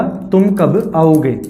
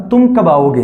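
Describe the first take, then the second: First: तुम, कब, आओगे drawn out slowly, each word separate; spaced-out teacher's repeat of तुम / कब / आओगे. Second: Said in the usual way. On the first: Shown as a demonstration. Repeats it to separate three words.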